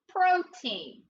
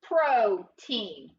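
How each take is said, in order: First: Protein said higher, bright and final; cheerful teacher repeat of protein; higher confirming repeat. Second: Pro-TEIN said slowly and firmly, stress on the first part; careful teacher model of Protein; sounded out slowly. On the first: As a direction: repeat protein up high as the answer. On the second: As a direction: model the word Protein for kids, first syllable strong. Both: Shown as a demonstration. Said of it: "What's that word?".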